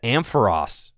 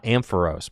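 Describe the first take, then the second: First: Ampharos ending in "ross"; official pronunciation. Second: Ampharos ending in long-O "rose"; mistaken pronunciation. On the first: Streamer sharing what he learned, official Ampharos ending in ross. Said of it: "Ampharos is pronounced Ampharos". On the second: Streamer showing his lifelong mistake, Ampharos ending in rose. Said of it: "not Ampharos". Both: Shown as a demonstration.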